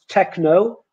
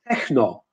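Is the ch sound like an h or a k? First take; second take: k; h. First: The ch is said as a k sound. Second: The ch is said as an h sound. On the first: The speaker calls it right. "is techno" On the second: The speaker calls it wrong. "not techno"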